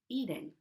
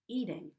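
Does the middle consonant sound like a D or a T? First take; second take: D; D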